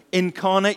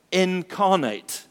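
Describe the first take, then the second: First: Said in the usual way. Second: "incarnate" drawn out slowly, each syllable weighed, falling at the end; slow stressed word. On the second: Shown as a demonstration. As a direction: lean into "incarnate" slowly and let it fall. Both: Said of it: "this funny word, incarnate".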